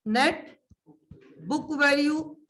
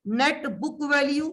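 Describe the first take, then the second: First: "net", a long pause, then "book value"; "net" held apart from "book value" for writing down; dictation pause. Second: Said in the usual way. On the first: Shown as a demonstration. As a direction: dictate it with a gap after "net". Same term dictated in pieces.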